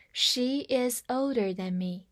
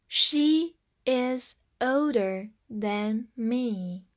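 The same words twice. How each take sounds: First: Said in the usual way. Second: Very slow, word by word; slow model reading. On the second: Shown as a demonstration. Teacher models the example for learners, slow and separated. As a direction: leave a gap after each word.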